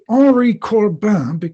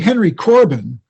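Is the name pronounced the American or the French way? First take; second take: French; American. First: The name is pronounced with French sounds. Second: The name is pronounced with American English sounds. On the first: "in the French pronunciation" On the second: "if you Americanize it and say Henry Corbin"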